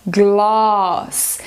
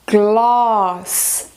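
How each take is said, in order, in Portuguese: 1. Sotaque britânico, com um A longo e aberto. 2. Sotaque britânico, com um A longo e aberto.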